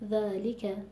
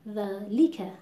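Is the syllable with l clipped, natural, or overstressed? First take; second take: natural; overstressed. First: The word flows with even, natural weight. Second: The l syllable is pushed with heavy stress. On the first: The speaker calls it right. "خیلی طبیعی" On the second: The speaker calls it wrong. "فشار زیادی و نبر زیاد میاریم رو حرف لام"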